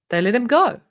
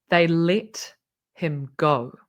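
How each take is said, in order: First: The voice lifts upward at the end. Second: The voice tapers off and falls at the end. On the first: The event is treated as trivial and flippant. The speaker calls it wrong. "which makes it sound quite flippant" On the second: The event is treated as serious and powerful. The speaker calls it right. "Imagine if he'd said it like this"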